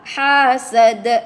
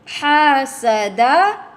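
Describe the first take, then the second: First: The word ends on an echoing stop consonant. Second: The word ends with a short vowel. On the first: The reader stops on this word. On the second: The reader continues without stopping.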